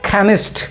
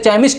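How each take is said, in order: First: The word begins with a k sound. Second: The word begins with a ch sound. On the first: The speaker calls it right. "इसे बोलेंगे खैमिस्ट" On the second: The speaker calls it wrong. "इसे चैमिस्ट नहीं बोलेंगे"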